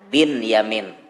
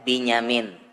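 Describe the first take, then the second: First: The name is split into two separate parts. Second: The name runs together as one joined word. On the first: This is the original form, meaning son of fortune. The speaker calls it right. "Padahal aslinya Bin Yamin" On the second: This is how Indonesians read the joined spelling. The speaker calls it wrong. "dibaca orang Indonesia Binyamin"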